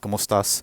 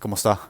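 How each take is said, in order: First: The final s is clearly pronounced. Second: The final s is dropped, Andalusian style.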